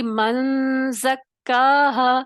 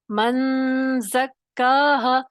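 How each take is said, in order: First: मन ज़क्काहा read slowly with a wrong join; drawn-out मन ज़क्काहा, the mistaken way; मन ज़क्काहा spoken slowly as the error to avoid. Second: मन ज़क्काहा very slow and deliberate; carefully spelled-out मन ज़क्काहा; मन ज़क्काहा drawn out syllable by syllable; demonstrated reading. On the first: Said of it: "तो ये गलत है". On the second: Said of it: "ये गलत है". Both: Shown as a demonstration.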